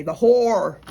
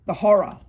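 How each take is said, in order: First: "whore" for horror, one loud syllable; American horror. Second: "horror" in two syllables, loud; Australian horror. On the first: Retold or imitated. Mocking how Americans say it, loud one-syllable "whore". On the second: Shown as a demonstration. Correcting back to the Aussie way, loud "horror" as HO-ruh. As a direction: restore the second syllable of "horror". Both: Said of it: "Or as you say".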